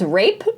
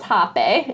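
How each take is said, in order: First: It is said like the English word rape. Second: It begins with an H sound, two syllables. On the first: The speaker calls it wrong. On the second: The speaker calls it right. "it is pronounced Hape"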